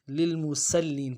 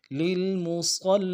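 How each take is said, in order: First: للمسلین with ص as light س; wrong s sound. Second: للمصلین with thick emphatic ص; correct heavy s. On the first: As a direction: say للمسلین with thin s. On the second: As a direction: make ص full in للمصلین. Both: Shown as a demonstration. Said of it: "ایسا نہیں کرنا چاہیے".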